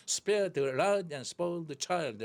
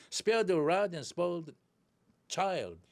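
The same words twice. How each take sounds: First: Put-on slow, beating on "Spare", "rod", "spoil", "child"; rhythmic stress. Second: Put-on "Spare", "rod", "spoil", "child" stressed, function words light; content-word stress. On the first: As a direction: tap out the rhythm on the content words. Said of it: "리듬이 있습니다". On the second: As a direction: swallow "the" and "and", punch the content words. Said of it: "중요한 내용어에는 강세가". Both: Shown as a demonstration.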